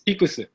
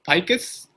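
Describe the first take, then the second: First: The word ends with an extra 'su' syllable. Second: The word ends with a plain 's' sound. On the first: This is the original Japanese pronunciation. "in Japanese it's pikusu" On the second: This is how most people commonly say it. "everybody says picus"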